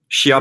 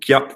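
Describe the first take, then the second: First: The word begins with an 'sh' sound. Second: The word begins with a 'k' sound. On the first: "pour ceux qui savent pas comment ça se prononce" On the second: "ou kia, tu choisis"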